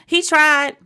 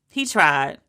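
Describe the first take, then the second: First: High, louder first take; He tried. high and loud; high sympathetic. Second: Low, sighing second take; He tried. low and settled; low resigned. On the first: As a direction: pitch it up and louder. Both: Shown as a demonstration.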